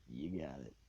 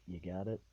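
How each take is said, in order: First: "You got it." falling at the end as a statement; confirming. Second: "You got it?" rising at the end as a question; louder "You got it?" with an upward tune. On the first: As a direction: approve it, dropping the pitch on "You got it.". Teacher approving after seeing board. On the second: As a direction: check in, lifting the pitch on "got it?". Teacher checking on him. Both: Retold or imitated.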